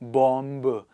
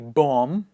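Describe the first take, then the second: First: The final b is sounded. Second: The final b is silent. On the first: The speaker calls it wrong. "That's wrong English" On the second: The speaker calls it right. "We say bomb"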